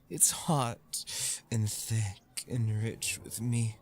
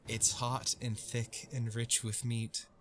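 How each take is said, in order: First: It is read in a sultry voice. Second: It is read in a plain voice.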